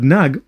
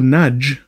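First: It is said with a hard g sound. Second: It is said with a j sound.

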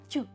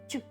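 First: A softened 't' followed by a 'yu' vowel. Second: The same.

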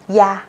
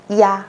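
Both takes have the same delivery.

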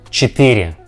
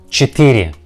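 No difference in how they are said.

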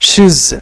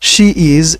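First: One contracted syllable ending in a z sound. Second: Two separate words with a full vowel between. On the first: "এটা হয়ে যাবে শিজ" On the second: "অনুরূপভাবে শি ইজ"

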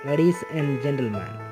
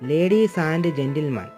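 First: The word 'and' is reduced to 'n'. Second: The word 'and' is said in full. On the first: The speaker calls it right. "എൻ മാത്രം ഉപയോഗിക്കുക" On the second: The speaker calls it wrong. "അങ്ങനെ പറയരുത്"

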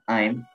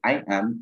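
First: It is said as one contracted syllable. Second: It is said as two separate syllables. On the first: "1 syllable" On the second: "2 syllables"

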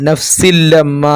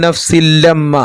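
No difference in how they are said.

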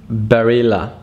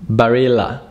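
No difference in how they are said.

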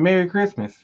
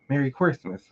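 First: The greeting is said more loudly. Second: The greeting is said at normal volume.

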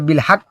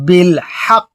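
First: The final consonant is cut short without holding. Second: The final consonant is held briefly with a bounce. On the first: The speaker calls it wrong. "তাহলে তারপর ভুল" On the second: The speaker calls it right. "দম ফেলে একটুখানি ধরে রাখতে হবে"

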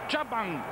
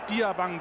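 First: The name begins with a single 'ya' sound. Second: The name begins with a separate 'dee-a' sound. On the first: This is how the player wants to be called. The speaker calls it right. "Jabang will er gerufen werden" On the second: This is how most people say the name. The speaker calls it wrong. "nicht Diabang, wie die meisten sagen"

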